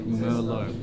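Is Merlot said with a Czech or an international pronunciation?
international. It is said with an international pronunciation. "in international language we would say Merlot"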